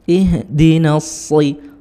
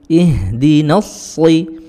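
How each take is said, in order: The two takes are said the same way.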